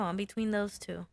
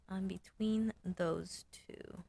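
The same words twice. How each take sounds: First: Said in the usual way. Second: Hushed slow whisper. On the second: Real, not acted. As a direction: whisper it to yourself. Repeats it whispered.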